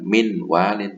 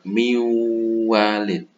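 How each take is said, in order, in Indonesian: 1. Bunyi n tetap dipertahankan sebelum w. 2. Bunyi n melebur ke w yang mengikutinya. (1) "bukan min walin" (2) "nun sukunnya melebur ke huruf idgham gunanya yaitu wawu"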